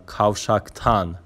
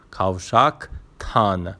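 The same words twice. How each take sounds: First: Said in the usual way. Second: "کاوشاکتان" slowly, with a pause before تان; suffix set apart. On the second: Shown as a demonstration. Teacher giving directions at the junction, "کاوشاکتان" split before تان.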